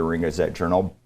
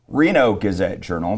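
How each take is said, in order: First: The name is said fast. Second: The name is said slowly.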